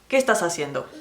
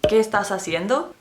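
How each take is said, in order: First: The voice falls at the end. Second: The voice rises at the end. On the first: "You have your tone go down at the end of a question" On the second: "instead of saying"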